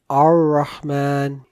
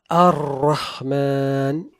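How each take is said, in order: First: The R has almost no trill or vibration. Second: The R is trilled with several strong vibrations. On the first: "since there is no inhiraf, even the tikrar does not come out correctly" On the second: "multiple vibrations"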